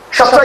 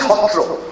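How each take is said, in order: First: The word begins with an 'sh' sound. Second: The word begins with an 'h' sound. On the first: The speaker calls it wrong. "Shatra is a wrong English pronunciation" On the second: The speaker calls it right. "The correct pronunciation is Hotro"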